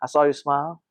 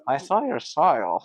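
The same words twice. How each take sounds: First: It is said in a smooth, suave way. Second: It is said in an awkward, clumsy way.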